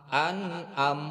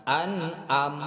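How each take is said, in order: Both takes have the same delivery.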